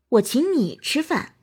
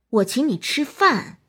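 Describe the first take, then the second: First: The word 你 carries the stress. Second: The word 饭 carries the stress. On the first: "突出你" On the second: "突出饭"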